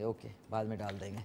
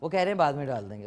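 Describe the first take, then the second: First: Much softer and lower, muttered to herself; quiet aside. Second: Said in the usual way. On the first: Real, not acted. Host repeating the crew's instruction to herself, softly. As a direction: drop the voice right down as a private repeat.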